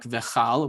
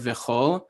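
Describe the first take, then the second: First: The vowel after the ch is an 'a'. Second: The vowel after the ch is an 'o'. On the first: The speaker calls it wrong. "it would sound like v'chal, which is wrong" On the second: The speaker calls it right. "the marking is an o vowel"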